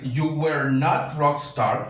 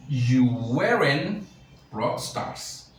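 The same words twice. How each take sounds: First: "You were not rock star" with were and not as two full words, slow; slow and spell it out: "were not", leaning on not; teacher models the full negative "were not" slowly; full form. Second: "You weren't rock stars" with were and not joined into "weren't", slow, trailing off; teacher models the contracted "weren't"; contracted form. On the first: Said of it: "Yo puedo decir". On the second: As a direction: say the contraction "weren't" slowly, then let the end fade. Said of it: "pero también puedo decir". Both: Shown as a demonstration.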